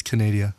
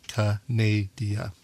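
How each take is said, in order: First: Canada said deliberately as Canadia, run together normally; Canada with a NAY in the middle, ending dee-uh; pronounced Canadia. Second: Canada broken slowly into "ka-nay-dee-uh"; slow, separated syllables on Canada, "ka... nay... dee... uh". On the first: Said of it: "I'm not mispronouncing it". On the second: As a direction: spell out Canada by sound as Canadia, one slow syllable at a time. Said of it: "breaks down the word by syllable". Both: Shown as a demonstration.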